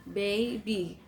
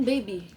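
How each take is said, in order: First: Put-on "Baby" broken into two beats, BA-BY; syllable by syllable. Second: Said in the usual way. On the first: Shown as a demonstration. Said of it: "two syllables". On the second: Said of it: "we don't say it all at once".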